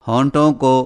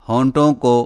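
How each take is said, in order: No difference in how they are said.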